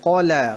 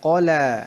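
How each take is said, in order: First: The first consonant is heavy and thick. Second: The first consonant is heavy and thick.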